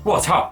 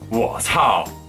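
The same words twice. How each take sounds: First: It sounds a bit frightened. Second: It sounds really angry.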